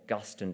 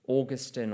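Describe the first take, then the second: First: The name is given its Protestant pronunciation. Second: The name is given its Catholic pronunciation.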